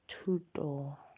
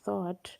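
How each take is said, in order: First: The name begins with a 't' sound. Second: The name begins with a 'th' sound. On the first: The speaker calls it right. "It's pronounced as tuto" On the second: The speaker calls it wrong. "it's not supposed to be pronounced as thought"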